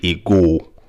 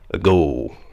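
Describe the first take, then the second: First: The first vowel is fully sounded. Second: The first vowel is weak and barely sounded. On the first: The speaker calls it wrong. "which most people will say a goal" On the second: The speaker calls it right. "The correct pronunciation is what?"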